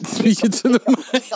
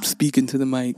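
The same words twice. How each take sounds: First: High, put-on "Speaking to the mic"; playful high voice for a mic test; high mic check. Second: Low-pitched "Speaking to the mic"; playful low voice for a mic test; low mic check. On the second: Pretend. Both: Testing the microphone, playful repeat.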